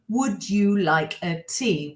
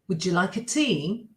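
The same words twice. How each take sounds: First: It is said slowly with separate words. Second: It is said fast with words run together. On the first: "I'm going to say it slow" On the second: "if I say it fast"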